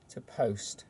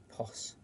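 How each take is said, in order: First: Said in the usual way. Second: "pos." said short as pos, no t, much softer; corrected to pos. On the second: Shown as a demonstration. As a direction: drop the t: just "pos.". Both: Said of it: "So pos is the s".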